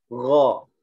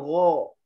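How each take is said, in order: First: The sound is heavy and full. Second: The sound is light and thin. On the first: The speaker calls it right. "ini juga istilah tebal ya" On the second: The speaker calls it wrong. "Jangan ro"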